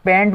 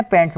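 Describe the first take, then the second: First: "पैंट" with no final s, rising as if questioning; "पैंट" said bare, rising tune; singular without s. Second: "पैंट्स" with a clear final s, falling firmly; "पैंट्स" with a crisp s, falling tune; plural with s. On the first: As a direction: drop the s on "पैंट", lift the end. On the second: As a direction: sound the s on "पैंट्स" and settle it. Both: Shown as a demonstration. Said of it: "जैसे कि".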